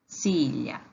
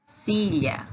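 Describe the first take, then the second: First: "silla" repeated lower; Spanish repeat. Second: "silla" said with a lift; Spanish pronunciation. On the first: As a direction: echo "silla" down. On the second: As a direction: model "silla" brightly. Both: Shown as a demonstration. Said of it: "Cadeira em espanhol se diz assim, ó".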